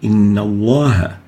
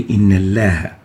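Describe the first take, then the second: First: The L sound is heavy and velarized. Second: The L sound is light and thin. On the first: The speaker calls it right. "We have to say Inna Allah" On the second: The speaker calls it wrong. "we shouldn't say Inna Allah"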